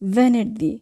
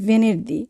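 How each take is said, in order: First: The first vowel is an open 'a'-like sound. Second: The first vowel is a closed 'e'. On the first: The speaker calls it right. "হবে ভ্যানের দি" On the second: The speaker calls it wrong. "আমরা অনেকে বলি ভেনের দি"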